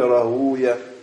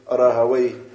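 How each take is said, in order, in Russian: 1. Имя заканчивается на звук '-uya'. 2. Имя заканчивается на звук '-vey'. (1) "И поэтому они читали рагуя" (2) "А те, кто языковеды, они читали сибавей, рагавей"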